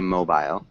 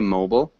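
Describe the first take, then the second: First: The word is said in a British accent. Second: The word is said in an American accent. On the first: "and in Great Britain, England, they'd say mobile" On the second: "So in the United States, would say mobile"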